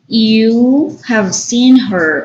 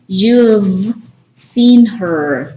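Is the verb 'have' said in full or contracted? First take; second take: full; contracted. First: The word have is said in full. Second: Have is contracted to a short v sound. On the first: "the long form" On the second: "That will be the pronunciation"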